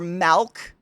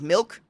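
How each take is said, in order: First: It is said in a Pennsylvania/Jersey accent. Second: It is said in a standard accent. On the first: "Or milk" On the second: "instead of milk"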